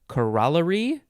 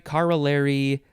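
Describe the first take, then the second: First: It is said with a British pronunciation. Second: It is said with a non-British pronunciation.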